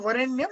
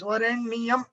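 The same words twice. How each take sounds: First: The ending is joined into one syllable. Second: The ending is split into separate syllables. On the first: The speaker calls it wrong. "it is together" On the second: The speaker calls it right. "you have to make it separate"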